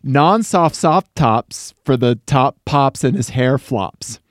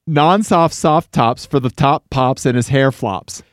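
First: It is said at a normal speed. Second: It is said fast.

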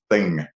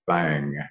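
First: It is said with a standard accent. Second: It is said in the local rural dialect.

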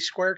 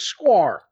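First: The word is said in a plain general accent. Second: The word is said in a Southern accent. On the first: "Maybe it's supposed to be Square Cat" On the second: "here in the South, we pronounce that as squar"

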